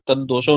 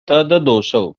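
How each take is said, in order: First: The d sound is doubled with no vowel between. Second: An a vowel separates tad from doshau. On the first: The speaker calls it wrong. "तद्दोषौ नहीं है" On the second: The speaker calls it right. "तद अदोषौ"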